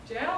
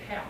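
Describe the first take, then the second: First: The name begins with a J sound. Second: The name begins with an H sound.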